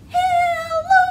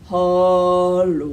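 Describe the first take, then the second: First: It is said in a high squeaky voice. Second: It is said in a low deep voice.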